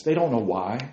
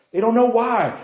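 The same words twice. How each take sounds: First: Said in the usual way. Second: High, louder cry of they don't know why; emphatic lament. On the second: Acted. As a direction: lift the repeat up in exasperation. Repeated lament.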